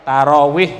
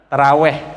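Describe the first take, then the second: First: The last syllable has a close 'i' vowel. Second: The last syllable has an open 'e' vowel. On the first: It follows the original Arabic word. The speaker calls it right. "tarawih ya Bu" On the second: It is the way Javanese speakers tend to say it. The speaker calls it wrong. "jangan taraweh"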